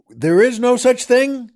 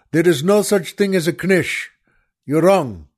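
First: Pitched up and louder in disbelief; incredulous echo. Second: Said in the usual way. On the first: Acted. Echoing the waiter's claim to the audience, in disbelief. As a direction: throw the claim back, amazed.

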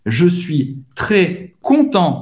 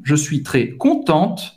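First: "content" ending in a nasal vowel, no T sounded; silent final T. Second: "contente" with a clear T at the end; final T sounded. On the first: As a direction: drop the T of "content", stop on the nasal. ("content" sem o T, masculino) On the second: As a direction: land on the T of "contente". ("contente" com T no final, feminino) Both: Shown as a demonstration. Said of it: "Você vai pronunciar o T no final".

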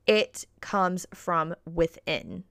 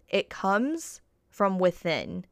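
First: Slow, deliberate emphasis on comes and within; slow emphatic. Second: Slower, weighted on comes; slow repeat. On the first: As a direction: spell it out slowly. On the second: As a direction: lay the words down slowly. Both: Shown as a demonstration. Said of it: "And I will say that again".

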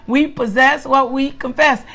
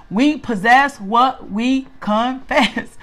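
First: Said in the usual way. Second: Each word set apart, very slow; slow, deliberate teaching. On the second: Real, not acted. Teacher giving the group a key saying, slow and measured.

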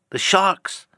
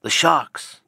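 First: The sharks! cried much higher and louder; higher alarmed cry. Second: Louder cry of The sharks!; alarmed cry. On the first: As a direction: push The sharks! up into a panicked shriek. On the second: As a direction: warn of The sharks! with a raised voice. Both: Acted. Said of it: "cried a voice from the low cabin window".

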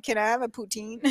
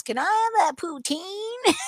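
First: Said in the usual way. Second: Put-on Texas accent. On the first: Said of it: "and I'm like". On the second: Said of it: "So he goes".

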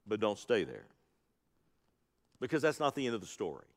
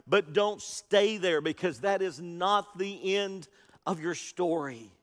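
First: Dropped low and quiet, hurried through; tossed off softly before the real point; soft aside. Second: Slow, deliberate, every word leaned on; emphatic refrain. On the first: Preacher softly telling the church not to linger at the tomb, hushed. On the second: Preacher urging the Easter congregation not to stay, slow and emphatic. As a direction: drive the refrain home slowly. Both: Acted.

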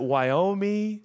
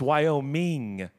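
First: Wyoming said as "Wyo-mee", final g dropped; questioned pronunciation. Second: Wyoming with a full "ming" at the end; ING ending pronounced. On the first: Preacher unsure of the state's name, Wyoming as "Wyo-mee". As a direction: say Wyoming ending in a drawn-out "mee". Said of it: "I don't know how to". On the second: Preacher correcting himself on the state, Wyoming ending in clear "-ming". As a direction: draw out Wyoming, sounding the final -ing. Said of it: "It ends with an I N G". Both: Shown as a demonstration.

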